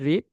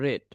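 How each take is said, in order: First: The vowel is long, like 'reed'. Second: The vowel is short, like 'red'. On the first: The action is in the present. "এটা present ফর্মে রিড" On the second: The action is in the past. "মানে পাস্টে যখন উচ্চারণ করবেন তখন রেড হবে"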